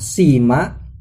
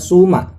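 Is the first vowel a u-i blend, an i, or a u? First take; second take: i; u. First: The first vowel is a pure i sound. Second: The first vowel is a pure u sound. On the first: "bisa kasroh jadinya sima" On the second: "bisa dhammah jadinya suma"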